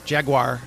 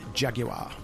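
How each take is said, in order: First: The word is said with an American pronunciation. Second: The word is said with a British pronunciation. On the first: "as Americans pronounce it" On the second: "a British commercial for Jaguar ... it was emphasized Jaguar"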